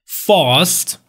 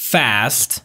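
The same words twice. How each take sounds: First: British "Fast" with a long ah; British accent, open back vowel in "Fast"; British pronunciation. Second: American "fast" with a front a as in cat; American accent, flat front vowel in "fast"; American pronunciation. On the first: English teacher showing the British vowel, British accent. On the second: English teacher contrasting it with British, American accent. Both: Shown as a demonstration. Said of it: "بریتیش".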